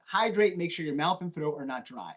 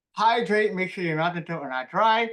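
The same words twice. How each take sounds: First: Said in the usual way. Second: Talking around a pen held sideways in the mouth. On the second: Shown as a demonstration. Teacher demonstrating the pen trick to the class, words muffled by the pen. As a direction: read it with a pen clenched between the teeth. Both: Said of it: "Take it out".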